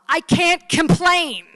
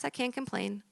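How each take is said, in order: First: Loud, high, drawn-out cry; hammed-up shouted punchline; exasperated outburst. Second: Soft, higher-pitched dismissal; meek, uncomplaining patient voice; resigned refrain. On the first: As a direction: blow up on it, stretching each word. Patient finally bursts out, punchline. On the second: Acted. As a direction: say it small and soft, as if nothing is wrong. Same patient, quiet refrain before outburst.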